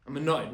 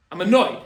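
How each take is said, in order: First: Said in the usual way. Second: Sudden loud burst of mock annoyance; hammed-up frustrated driver; mock annoyed outburst. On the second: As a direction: blurt it out loud like a stuck driver.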